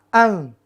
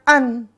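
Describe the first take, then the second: First: The n is blurred and hidden in the nose. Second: The n is pronounced fully and clearly. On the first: The speaker calls it right. "Tapi harus ikhfa" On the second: The speaker calls it wrong. "Jangan dibaca an. An nggak boleh"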